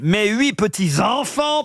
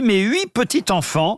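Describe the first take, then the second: First: A linking z sound joins petits to enfants. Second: No linking sound joins petits to enfants. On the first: The speaker calls it right. "Je vais mettre la liaison" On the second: The speaker calls it wrong. "j'ai pas mis le S non plus à petit"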